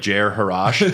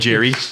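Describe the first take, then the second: First: The name is said in a longer form. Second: The name is said in a shorter form. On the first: This is likely the proper pronunciation. "it's probably pronounced like" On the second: This is the speaker's own casual pronunciation. "I pronounce it Jerry"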